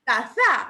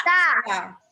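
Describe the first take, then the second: First: "Taza" wrongly stressed as ta-ZA; misplaced stress, "Taza" with loud ZA; stress on final syllable. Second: "taza" stressed as TA-za, TA loud; stress on first syllable. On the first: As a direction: punch the last syllable of "Taza". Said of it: "así estará bien". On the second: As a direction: punch ta in "taza", let za drop. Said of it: "¿O será". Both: Shown as a demonstration.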